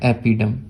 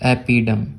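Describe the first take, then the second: The two takes are said the same way.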